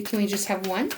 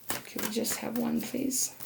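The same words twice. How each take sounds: First: Said in the usual way. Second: Softer, gently pleading please. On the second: Real, not acted. Reader softly begs Spirit for just one card. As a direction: coax it quietly.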